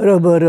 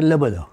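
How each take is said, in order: First: The word uses an R sound throughout. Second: The word uses an L sound throughout. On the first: This is how children say it once they learn. "ते पुढे कळायला लागलं की मग ते र म्हणतात" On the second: This is how young children say it before learning. "त्याच्या अगोदर ते म्हणतात"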